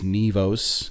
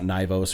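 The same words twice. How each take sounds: First: The first vowel is an 'ee' sound. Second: The first vowel is not an 'ee' sound. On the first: The speaker calls it right. "It's Nivos, kind of like N E E V O S" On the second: The speaker calls it wrong. "it's not Nivos"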